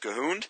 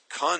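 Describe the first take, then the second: First: The H is sounded after the first consonant. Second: The H is silent after the first consonant. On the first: "I say Cahooned" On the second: "He says the H is silent"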